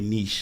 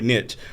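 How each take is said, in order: First: The word is said in a non-Texas pronunciation. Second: The word is said in a Texas pronunciation.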